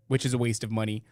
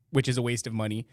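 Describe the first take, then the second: No difference in how they are said.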